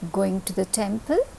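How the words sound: The pitch rises at the end. It asks whether someone is going to the temple. "If you're raising your voice, what does that mean? That it is a question"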